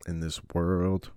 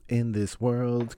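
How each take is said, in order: First: Said in the usual way. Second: Announcer voice. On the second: Shown as a demonstration.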